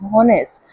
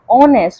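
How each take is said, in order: First: The word starts with an audible H sound. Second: The word starts with a vowel, no H sound. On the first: The speaker calls it wrong. "We do not pronounce it as honest" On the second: The speaker calls it right. "we do not pronounce H, we pronounce it as honest"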